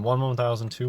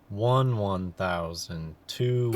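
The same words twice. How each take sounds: First: The counting is quick and rushed. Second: The counting is slow and drawn out.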